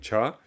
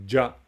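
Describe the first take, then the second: First: The first sound is voiceless, like ch. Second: The first sound is voiced, like j. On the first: The word stands on its own. "Donc cha, très clairement" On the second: The word is joined to another word. "Le cha devient ja parce qu'il est accompagné"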